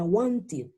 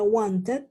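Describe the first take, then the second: First: "wanted" said wan-tid, with a short i. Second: "wanted" said wan-tet, with an e; wrong pronunciation. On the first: Teacher modelling the correct past tense, ID ending. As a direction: end "wanted" in -id, falling. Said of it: "yo diría". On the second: Teacher showing the form to drop, mispronounced. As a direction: end "wanted" in a spelled-out -et. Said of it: "ya no diría". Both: Shown as a demonstration.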